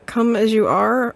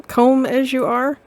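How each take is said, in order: First: "Come" said as plain kum; "Come as you are" read straight with "Come" as kum. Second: "comb" said as kohm, rhyming with home; "comb as you are" with "comb" as long-o kohm. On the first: Player reading barber sign, "Come" pronounced kum. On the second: Player rereading barber sign pun, "comb" as kohm. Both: Shown as a demonstration. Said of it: "or comb".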